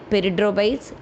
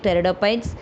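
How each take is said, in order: First: The initial P sound is pronounced. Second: The initial P sound is silent. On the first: The speaker calls it wrong. "don't uh, read like peridophytes" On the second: The speaker calls it right. "The P is silent here, so you should pronounce like pteridophytes"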